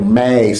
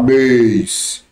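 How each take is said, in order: First: The vowel is said open, mouth wide. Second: The vowel is said closed, mouth narrow. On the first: The speaker calls it right. "E termina de tom aberto" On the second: The speaker calls it wrong. "você não fala mês"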